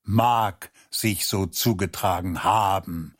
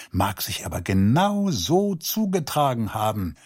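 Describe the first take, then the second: First: "Mag" set apart and leaned on, as a challenge; mildly testy quote-back with weight on "Mag"; indignant echo, stress on MAG. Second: Said in the usual way. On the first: A narrator's reading. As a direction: throw the phrase back, picking out "Mag". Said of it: "schnauzte er ihn da an".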